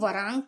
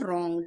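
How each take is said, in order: First: A w sound is pronounced before the r. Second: The word starts directly with r, no w. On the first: The speaker calls it wrong. "वरांग पढ़ेंगे क्या? ... नहीं" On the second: The speaker calls it right. "इसे पढ़ेंगे हम रॉन्ग"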